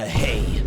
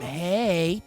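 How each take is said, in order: First: It is said in a deep, distorted voice. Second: It is said in a normal, light voice.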